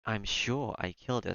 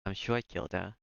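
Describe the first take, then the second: First: Slow, with "killed" stressed. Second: Said in the usual way. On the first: Acted. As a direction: lean on "killed", slowly. Repeating the line, obsessively.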